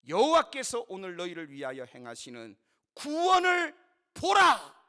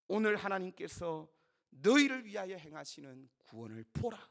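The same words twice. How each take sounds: First: Full-voiced shout rising to a peak; crying out. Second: Said in the usual way. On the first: Moses telling the Israelites to behold salvation, shouted. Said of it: "이렇게 외쳤습니다".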